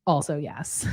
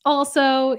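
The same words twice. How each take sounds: First: Said in the usual way. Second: Also, said louder and higher; loud emphatic also. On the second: Shown as a demonstration. To the host, repeating with a punch.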